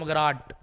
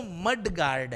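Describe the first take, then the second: First: "मगराट" slurred into one word ending in T; common mispronunciation. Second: "मड गार्ड" in two words, both Ds sounded; correct pronunciation. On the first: Retold or imitated. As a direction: imitate the folk version "मगराट", first D dropped. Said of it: "लोग क्या बोलते हैं?". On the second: Shown as a demonstration. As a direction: say "मड गार्ड" fully and separately. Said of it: "होता तो मड गार्ड है।".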